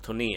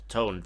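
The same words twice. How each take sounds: First: The name is said the Japanese way. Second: The name is said like the English word. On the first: The speaker calls it right. "it's called Tone" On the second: The speaker calls it wrong. "not Tone, despite written like this in English"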